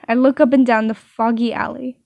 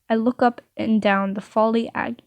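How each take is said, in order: First: Said in the usual way. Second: "folly ag-" said for foggy alley, breaking off; misreading. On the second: Real, not acted. Narrator misreads the alley line, saying "folly ag-". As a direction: stumble into "folly ag-" and cut short. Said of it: "I usually cut out all of my reading errors".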